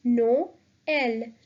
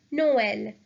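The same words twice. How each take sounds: First: "Noël" broken in two, NO, pause, EL; vowels split apart. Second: Said in the usual way. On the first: Shown as a demonstration. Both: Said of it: "pronounce both these vowels separately".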